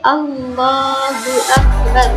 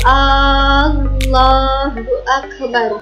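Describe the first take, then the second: First: The opening vowel of Allah is kept short. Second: The opening vowel of Allah is drawn out long. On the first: The speaker calls it right. "akan tetapi" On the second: The speaker calls it wrong. "tidak memanjangkan huruf hamzah dari lafal Allah. Artinya tidak menggunakan"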